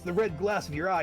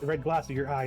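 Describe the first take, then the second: First: It is read in a put-on character voice. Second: It is read in the reader's ordinary voice.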